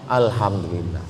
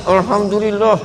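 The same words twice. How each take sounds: First: It is said openly and sincerely. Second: It is said grudgingly and angrily.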